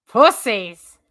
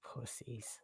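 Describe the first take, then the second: First: Louder shouted jab; loud insult. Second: Breathy whispered jab under the breath; whispered insult. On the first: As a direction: call it out teasingly to the chat. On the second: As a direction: mutter it as a hushed aside. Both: Real, not acted. No one takes the link.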